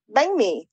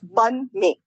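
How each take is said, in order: First: Northern Vietnamese pronunciation, first word ending in ng. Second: Southern Vietnamese pronunciation, first word rhyming with bun. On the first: "The North Vietnamese pronunciation gives that NH a G sound" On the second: "One of them is the South Vietnamese way"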